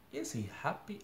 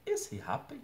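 First: Said in the usual way. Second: "Is he happy?" said with a big leap up in pitch, "Is" stressed; exaggerated teacher's question tune on "Is he happy?". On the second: Shown as a demonstration. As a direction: swing "Is he happy?" high as a real question. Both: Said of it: "I have to change my intonation as well".

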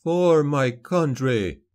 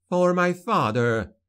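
First: Slow, louder oath with stress on "For"; a grave vow as he strikes; solemn rebel leader. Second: High, slow, weighted oath with stress on "For"; vengeful daughter. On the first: Rebel leader's vow as he stabs the caliph, solemn. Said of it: "said Halim". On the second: Daughter avenging her father on the caliph, high and solemn. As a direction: lean on "For" as the dagger falls. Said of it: "she said". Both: A narrator's reading.

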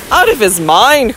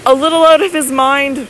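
First: Mild, incredulous echo question; astonished cry. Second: Higher, tentative suggestion; faltering. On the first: Husband startled by his wife's suggestion, astonished cry. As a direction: repeat it back in disbelief, voice falling away. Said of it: "cried Sir Michael". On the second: Wife broaching madness to her husband, gently faltering. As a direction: offer it timidly, in a raised pitch. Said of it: "faltered Lady Audley". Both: A narrator's reading.

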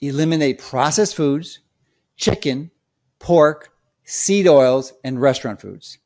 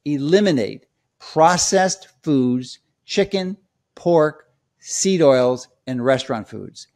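First: "pork" and "seed oils" punched louder; emphatic list, "chicken", "pork", "seed oils" each set apart; emphatic key points. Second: Slow, each item set apart; measured list with pauses between "chicken", "pork" and "seed oils"; deliberate list. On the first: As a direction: hammer the list home so it sticks. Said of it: "let me emphasize the key points again so it sticks". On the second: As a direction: lay out each item slowly and distinctly. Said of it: "let me give you those ten words". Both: Shown as a demonstration.

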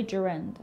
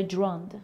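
First: «جرند» said as "je-REND", with an e in both syllables; variant pronunciation. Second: «دراند» run together as "jrond", first vowel dropped; variant pronunciation. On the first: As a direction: say «جرند» as jerend, one common variant. (تلفظ «جرند» به صورت جِرِند) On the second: (تلفظ «دراند» به صورت جْراند) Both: Shown as a demonstration.

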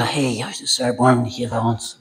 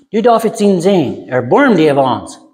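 First: Much softer, lowered timid call; mock half-hearted plea. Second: Mild retold cry. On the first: Preacher shows how not to call Jesus, mock feeble plea. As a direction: murmur it as a feeble imitation of crying out. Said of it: "No, das sagt, der schrie". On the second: Blind men calling to Jesus for mercy, mild retold cry. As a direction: call out for mercy without really shouting. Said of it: "Die schreien".

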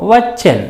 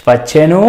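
First: వచ్చెన్ closed on a bare n; వచ్చెన్ with no vowel after n; vowelless final n. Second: వచ్చెను with a voiced u at the end; full final ను. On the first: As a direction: drop the u, end వచ్చెన్ on n. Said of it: "పొల్లులాగానే". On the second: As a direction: say the whole ను in వచ్చెను. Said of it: "ను అన్నట్లుగా కూడా ఉండొచ్చు". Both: Shown as a demonstration.

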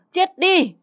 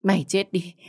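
First: Very high, loud shriek of fury; crazed raging scream. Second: First curse, still held down; raging curse. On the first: Mother beating the girl, crazed scream. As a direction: scream the curse at the top of the voice. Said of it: "Bà Tư như điên loạn". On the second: Mother cursing the girl who took her son, restrained rage. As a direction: curse them with anger just starting to rise. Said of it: "mắng chửi um trời". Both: A narrator's reading.

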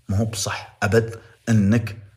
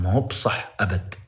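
First: Slower and louder, every word hit; heavier stress. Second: Said in the usual way. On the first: Shown as a demonstration. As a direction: hammer ما هو بصح أبد home, word by word. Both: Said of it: "emphatic repeat of the line".

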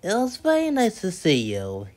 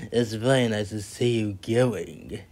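First: Lightly raised, polite storybook voice. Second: Lower, understated inner remark; private polite thought. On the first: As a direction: say it as a courteous guest. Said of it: "he said politely". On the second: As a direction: think it aloud, lower and plainer. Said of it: "what was thinking was so polite". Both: A narrator's reading.

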